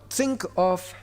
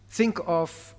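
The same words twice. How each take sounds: The two takes are said the same way.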